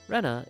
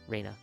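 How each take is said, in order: First: The first vowel is a short E sound. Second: The first vowel is a long A sound. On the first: The speaker calls it wrong. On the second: The speaker calls it right.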